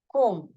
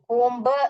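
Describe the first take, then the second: First: The word ends on an m sound, no b. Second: The word ends with an audible b sound. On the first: The speaker calls it right. "कोम ऐसे बोलना चाहिए" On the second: The speaker calls it wrong. "कोम्ब नहीं बोलना चाहिए"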